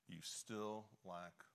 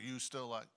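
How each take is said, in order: First: It is said in a gentle, compassionate tone. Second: It is said in a harsh, accusing tone. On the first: The listener is addressed with love. The speaker calls it right. "with such, you know, grace and compassion" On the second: The listener is being blamed. The speaker calls it wrong. "Did he point his finger"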